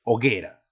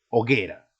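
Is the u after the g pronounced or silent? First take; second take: silent; silent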